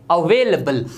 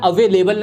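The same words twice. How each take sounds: First: अवेलेबल as "a-VAY-luh-bul", lower; weak "luh" in अवेलेबल; correct pronunciation. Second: अवेलेबल with a full "lay", "a-VAY-lay-bul"; long second e in अवेलेबल; wrong pronunciation. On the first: Teacher repeats for learners, अवेलेबल said "a-vay-luh-bul". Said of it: "ये होता है". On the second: Teacher shows learners the mistake, अवेलेबल with a full "lay". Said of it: "अवेलेबल नहीं होता". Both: Shown as a demonstration.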